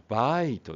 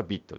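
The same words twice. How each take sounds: First: バイト with a stretched "ai"; バイト, I said as its letter name; long vowel. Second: ビット with a short "i"; ビット, I kept short; short vowel. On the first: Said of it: "アイの長い音はバイト". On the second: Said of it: "アイの短い音はビット". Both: Shown as a demonstration.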